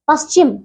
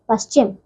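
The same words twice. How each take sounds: First: पश्चिम with s for sh, "paschim"; mispronounced पश्चिम. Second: Said in the usual way. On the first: Shown as a demonstration. Teacher shows pupils the error, hard "s" in पश्चिम. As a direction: put a plain "s" in पश्चिम. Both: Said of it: "नहीं".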